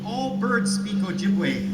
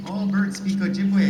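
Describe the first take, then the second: First: Slow, drawn-out, higher, every word weighted; grandfather's firm claim. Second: Louder and higher, said at normal speed; grandfather insisting. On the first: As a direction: lay it down slowly like a stubborn elder. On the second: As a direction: repeat it with a raised voice, insisting. Grandfather's repeated claim. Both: Retold or imitated.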